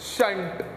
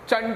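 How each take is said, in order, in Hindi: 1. शब्द 'sh' की आवाज़ से शुरू होता है। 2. शब्द 'ch' की आवाज़ से शुरू होता है। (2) "नहीं"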